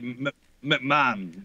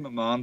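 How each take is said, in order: First: The name is pronounced the American way. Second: The name is pronounced the British way. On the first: This is how visitors hear Americans say it. "they normally say it like the like the wrestling guy" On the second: This is how the name's owner says it. "I would say McMahon"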